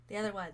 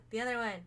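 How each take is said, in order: Both takes have the same delivery.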